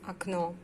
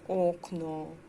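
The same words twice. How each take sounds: First: The first vowel sounds like an A. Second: The first vowel is a full O sound. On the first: The speaker calls it right. "but we pronounce окно" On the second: The speaker calls it wrong. "We don't say окно"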